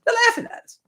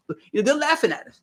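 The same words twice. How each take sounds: First: Much higher mock voice of the laughing elites; mocking falsetto. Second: Said in the usual way. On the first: Host imitates politicians laughing at voters, in a high mock voice. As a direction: squeak it like a gloating insider.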